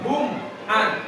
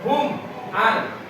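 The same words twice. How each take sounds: First: The words are pressed and held apart. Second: The same.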